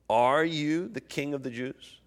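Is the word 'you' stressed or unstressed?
unstressed. The word 'you' carries no special stress.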